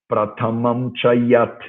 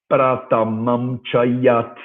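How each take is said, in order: No difference in how they are said.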